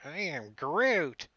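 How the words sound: It is said with sulky teenage Groot attitude.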